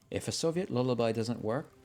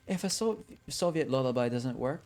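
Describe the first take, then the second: First: It is said in the plain narrator voice. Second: It is said in Huntress's put-on character voice.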